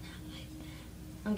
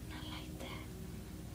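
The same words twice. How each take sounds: First: Slow soft whispered repeat. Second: Breathy slow whisper. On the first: Vlogger teasing viewers, soft whispered repeat. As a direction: breathe it again softly. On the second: Vlogger teasing viewers, slow secret whisper. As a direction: hush it out slowly like a secret. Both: Pretend. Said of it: "I'm kidding".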